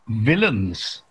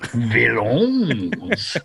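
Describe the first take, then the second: First: The word is said with an ordinary English accent. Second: The word is said with a put-on French accent.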